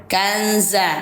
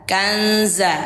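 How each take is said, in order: No difference in how they are said.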